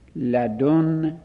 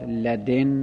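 First: The d is followed by a u vowel. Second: The d is followed by an i vowel. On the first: "لدن با ضم دال" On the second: "لدن با کسر دال"

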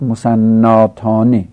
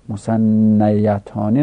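First: A long 'a' comes before the ending. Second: A 'ya' sound comes before the ending. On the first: The speaker calls it right. "در تثنیه هم باید گفت مسناتانه" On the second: The speaker calls it wrong. "مسنیتانه نباید"

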